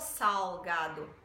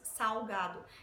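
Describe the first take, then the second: First: The L is pronounced as a clear L. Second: The L is pronounced like a U sound. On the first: "a gente não fala salgado" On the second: "Nós falamos salgado"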